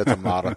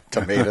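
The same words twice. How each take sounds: First: TOMATO as "to-MAH-to"; second pronunciation. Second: TOMATO as "to-MAY-to"; first pronunciation. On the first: Guest joking over rival pronunciations, to-MAH-to. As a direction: say tomato with a broad "ah" in the middle. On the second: Guest joking over rival pronunciations, to-MAY-to. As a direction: say Tomato with an "ay" in the middle. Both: Shown as a demonstration. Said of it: "You call it pecan".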